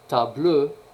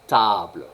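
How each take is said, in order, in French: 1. Le son e final porte l'accent. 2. Le son e final n'est pas accentué. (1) "c'est pas table" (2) "on n'accentue jamais les E caducs"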